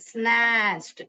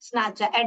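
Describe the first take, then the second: First: The ending is joined into one syllable. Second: The ending is said as a separate syllable. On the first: The speaker calls it right. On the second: The speaker calls it wrong. "ऐसे नहीं"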